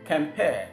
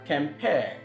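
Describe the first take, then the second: No difference in how they are said.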